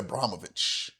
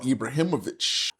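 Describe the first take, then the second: First: The name begins with an 'ah' sound. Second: The name begins with an 'ih' sound. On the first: The speaker calls it wrong. "I said Abramovich. I said it wrong" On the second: The speaker calls it right. "I said it wrong"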